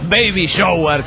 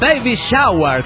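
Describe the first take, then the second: First: It is said without an open 'a' vowel. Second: It is said with an open 'a' vowel. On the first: The speaker calls it wrong. "como ustedes lo pronuncian" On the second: The speaker calls it right. "con A"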